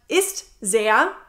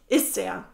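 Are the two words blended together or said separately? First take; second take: separate; blended. First: The two words are said as separate words. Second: The two words merge into one blended word. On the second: "sage ich ... Es ist quasi nur ein Wort"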